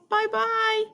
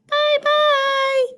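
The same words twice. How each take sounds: First: It is said in a medium-pitched voice. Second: It is said in a high, squeaky voice.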